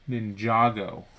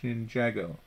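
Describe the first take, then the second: First: Ninjago with the A said as in palm; Ninjago, A open like palm; corrected pronunciation. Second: Ninjago with the A said as in ham; wrong pronunciation. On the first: Correcting herself for Cordy, saying Ninjago with a palm A. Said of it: "You pronounce the A as in palm". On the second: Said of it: "So I was saying it wrong". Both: Shown as a demonstration.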